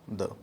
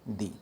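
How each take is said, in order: First: The word has a short, neutral vowel, like 'thuh'. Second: The word has a long 'ee' vowel, like 'thee'. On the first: It comes before a word starting with a consonant sound. "उच्चार हा द करायचा. द द मराठीतलं आपलं द" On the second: It comes before a word starting with a vowel sound. "उच्चार हा दी करायचा. दी मराठी दी"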